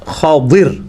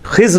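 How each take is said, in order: First: The name has two syllables with a d sound. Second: The name has one syllable with a z sound. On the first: The speaker calls it right. "ये लफ्ज़ है खदिर, ख्वा के ऊपर ज़बर है, दाद के नीचे ज़ेर है" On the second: The speaker calls it wrong. "खिज़्र लफ्ज़ गलत है"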